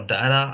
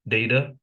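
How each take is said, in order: First: "data" with ah in the first syllable; dah-ta pronunciation. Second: "Data" opening like the word day; day-ta pronunciation. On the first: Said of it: "pronouncing it wrong both ways". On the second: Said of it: "That's how I would pronounce it". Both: Shown as a demonstration.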